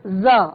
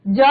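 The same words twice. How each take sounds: First: ज said as a buzzing z; nukta z sound. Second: ज said as a hard Hindi j; ज without nukta. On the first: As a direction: say ज as z, not j. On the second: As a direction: say ज as j, with no buzz. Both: Shown as a demonstration. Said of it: "ज नहीं कहते".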